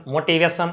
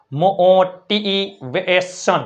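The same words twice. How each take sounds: First: Said in the usual way. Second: મોટિવેશન very slow, as "mooo-tiii-veee-son"; syllable-by-syllable demo. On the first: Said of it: "આઇટ અને ઈ R વાળા શબ્દ". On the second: Shown as a demonstration. Teacher spelling from pronunciation, મોટિવેશન sounded out slowly. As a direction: stretch and separate every syllable of મોટિવેશન. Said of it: "ઉચ્ચાર ઉપરથી spelling".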